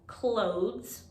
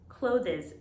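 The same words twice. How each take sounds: First: The s follows the th sound directly. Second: The ending is said as an extra syllable. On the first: The speaker calls it right. "where we ignore the E and we put the S right after T H" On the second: The speaker calls it wrong. "I hear a lot of students saying clothes, clothes. This is incorrect"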